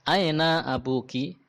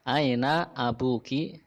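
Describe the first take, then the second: First: Higher, slower "Aina abuki?" with a rising end; lively model question. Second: Slow, calmer repeat with "aina" stretched. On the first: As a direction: ask it brightly for the class. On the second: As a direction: repeat it slowly. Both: Shown as a demonstration.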